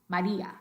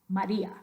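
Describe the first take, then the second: Both takes have the same delivery.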